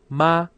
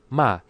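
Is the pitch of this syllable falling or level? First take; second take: level; falling. First: The pitch stays high and level. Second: The pitch falls sharply. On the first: It means ghost. "it sounds like the first tone" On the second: It means but or nevertheless. "fourth tone"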